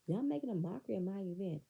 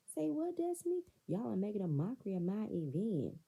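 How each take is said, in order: First: Said in the usual way. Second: High-pitched mock disbelief; mocking echo in a raised pitch; incredulous mimicry. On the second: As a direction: throw it back high and incredulous. Voices Melody repeating Destiny incredulously.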